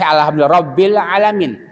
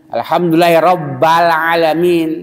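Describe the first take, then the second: First: The vowel after Rabb is i. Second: The vowel after Rabb is a. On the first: The speaker calls it right. "Yang sahih" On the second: The speaker calls it wrong. "dibaca Rabba"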